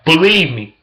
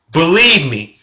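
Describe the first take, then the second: No difference in how they are said.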